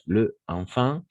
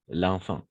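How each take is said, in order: First: The article is a separate syllable before the noun. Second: The article's vowel is dropped and joined to the noun. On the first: "c'est le enfant" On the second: "On va faire l'élision ici"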